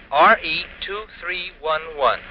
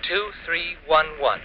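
First: Letter by letter, slow and careful; slow spelling. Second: Spelled out slowly for her to copy; slow dictation. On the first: Husband spelling the number, slow and deliberate. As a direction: spell out every letter and digit slowly. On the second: Husband dictating the number, slow and deliberate. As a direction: dictate each digit slowly so she can write it down. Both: Acted. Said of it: "Got it?".

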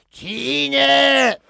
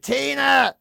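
First: Loud, high, long-held squawked call; drawn-out parrot imitation, high and loud; parrot mimicking sick woman. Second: High, drawn-out call for help; imitated invalid's cry, raised pitch; sick mother calling. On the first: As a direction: screech the name like a parrot copying its owner. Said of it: "The exact voice of the woman". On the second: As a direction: call upstairs-bound "Tina!" as the ailing mother. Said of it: "she'd ask Tina to help her".

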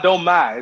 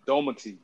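First: Domati misspoken as "Do-MAI", middle syllable drawn open; wrong pronunciation. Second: Domati quick, low and soft, middle reduced; correct pronunciation. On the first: Co-host showing the host's mistake, saying Domai with a broad "mai". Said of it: "It's not Domai". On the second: Co-host correcting the host, saying Domati softly with a light middle. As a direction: toss off Domati as one smooth word. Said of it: "It's just Domati". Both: Shown as a demonstration.

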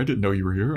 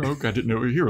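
First: Said in the usual way. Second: Higher, pleading repeat of the apology; groveling repeat. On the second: Retold or imitated. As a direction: say it again, higher and more desperate. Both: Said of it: "scared to groveling".

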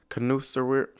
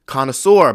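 First: Connoisseur mangled as kon-oo-ser; fumbled word. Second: Connoisseur said firmly as kon-uh-sore; corrected pronunciation. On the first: Real, not acted. Stuck on a word she can't say, a fumbled connoisseur. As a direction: stumble through connoisseur, unsure of the sounds. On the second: Shown as a demonstration. After looking the word up, a louder, confident connoisseur. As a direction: land connoisseur loud and proud, kon-uh-sore. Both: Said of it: "let me look up this word".

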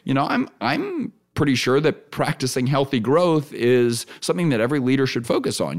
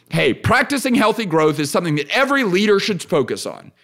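First: Inviting, qualified. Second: Firm, closed declaration; assertive statement. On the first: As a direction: hedge it and invite a reply. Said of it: "now I'm talking with you". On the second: Podcast host demos talking at people, assertive. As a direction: state it as absolute fact, no opening. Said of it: "if I say it like that". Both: Shown as a demonstration.

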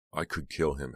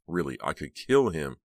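First: Said in the usual way. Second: Louder, pressing on kill; heated. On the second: A narrator's reading. Heather fuming to Snowman, louder on kill. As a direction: insist she means it. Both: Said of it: "Heather said heatedly".

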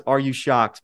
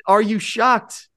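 First: Said in the usual way. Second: High, slow, hammed-up disbelief; mock shock. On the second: Host teasing his listeners, high, slow mock shock. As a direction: drag it out like a fake gasp.

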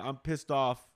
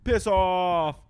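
First: Said in the usual way. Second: High, loud exclamation with a falling end; shouted insult. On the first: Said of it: "transitioned to being like". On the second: Acted. Guessing how the British say it, shouted. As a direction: holler it as a mock dismissal. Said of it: "if they say".

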